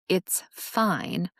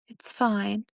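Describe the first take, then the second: First: It is said in a curt, angry tone. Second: It is said in a sad, downcast tone. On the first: The speaker is mad but refuses to discuss it. "meaning I'm mad, but I don't want to discuss it anymore" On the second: The speaker is hurt and wants reassurance. "meaning sadness and wanting reassurance"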